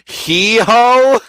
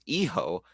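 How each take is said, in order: First: The word begins with an h sound. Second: The word begins without an h sound. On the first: The speaker calls it wrong. "that pronunciation is really fucked up" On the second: The speaker calls it right. "you don't pronounce the H"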